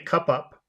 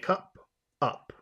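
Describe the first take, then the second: First: The two words run together without a pause. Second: A short pause separates the two words. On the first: The speaker calls it wrong. "You can't say cup up" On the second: The speaker calls it right. "You have to say cup up"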